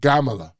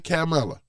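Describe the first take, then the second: First: The name begins with a G sound. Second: The name begins with a K sound.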